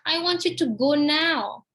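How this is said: The word "now" is stressed. The leaving should happen now, not tomorrow. "Now, not tomorrow, now"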